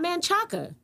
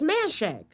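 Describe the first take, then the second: First: The name ends in a final vowel sound. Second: The name ends clipped on a consonant. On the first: The speaker calls it wrong. "Manchaca is not Manchaca" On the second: The speaker calls it right. "It's Manshack"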